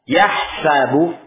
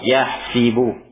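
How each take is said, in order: First: The vowel after the h is an a sound. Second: The vowel after the h is an i sound. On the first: "dengan sin yang di fathah" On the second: "ada pula yang di kasrah"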